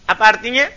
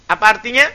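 No difference in how they are said.

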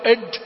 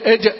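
First: The j is overdone and sounds like d. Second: The j is firm and cleanly stopped. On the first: The speaker calls it wrong. "يدخل عليها حرف الدال" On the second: The speaker calls it right. "الجيم من وسط اللسان"

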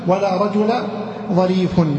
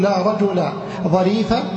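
First: The last word ends with -un. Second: The last word ends with a short -a vowel. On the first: "والرفع" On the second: "يكون لك فيها الفتح"

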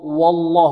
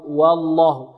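First: The waw is pronounced heavy. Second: The waw is pronounced light. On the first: The speaker calls it wrong. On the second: The speaker calls it right.

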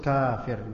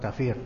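First: The vowel after the k is drawn out long. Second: The vowel after the k is kept short. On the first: The speaker calls it right. "yang bagus kafir" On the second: The speaker calls it wrong. "bukan kafir"

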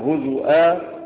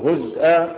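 First: A vowel after z, then a glottal stop. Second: No vowel after z, then a glottal stop. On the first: "بالهمزة سواء بضم الزاي" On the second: "أو بسكونها ها بالهمزة"

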